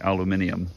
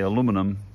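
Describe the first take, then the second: First: It is said the non-American way. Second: It is said the American way. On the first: "there's an extra letter for those that say aluminium" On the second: "in America, we might say aluminum"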